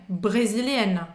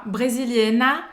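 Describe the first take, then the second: First: "Brasiliana" slow, closing on the N and letting the tongue go; right version, ending on the N. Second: "brasiliana" with a full A at the end; wrong version, ending in A. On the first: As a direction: end "Brasiliana" on the N, no final vowel. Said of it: "você solta a língua depois do N". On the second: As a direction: say "brasiliana" ending on an open A, as the Brazilian mistake. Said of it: "é como se fosse um A". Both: Shown as a demonstration.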